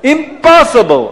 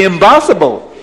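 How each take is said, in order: First: Said in the usual way. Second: Put-on accented "impossible" with B for P; loud accent turning impossible into "imbossible"; Abdallah's accent. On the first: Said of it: "Or you have to say impossible". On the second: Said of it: "Or you have to say".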